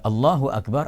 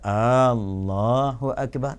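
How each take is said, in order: First: The first vowel of Allah is kept short. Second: The first vowel of Allah is drawn out long. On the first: God is the greatest. The speaker calls it right. "Allah yang maha besar" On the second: It becomes a question: is God the greatest? The speaker calls it wrong. "dia dah lari makna dia"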